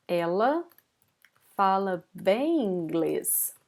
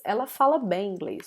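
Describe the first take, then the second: First: Slow model sentence. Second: Said in the usual way. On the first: Shown as a demonstration. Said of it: "I would say". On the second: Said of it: "I would say in Portuguese".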